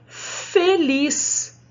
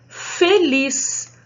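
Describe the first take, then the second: Both takes have the same delivery.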